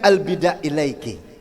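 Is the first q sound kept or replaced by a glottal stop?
glottal stop. The first word starts with a glottal stop.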